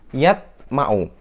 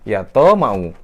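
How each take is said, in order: First: The t is closed with no bounce. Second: The t bounces fully like a vowel. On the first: "Salah, tidak pantul" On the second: "Salah juga"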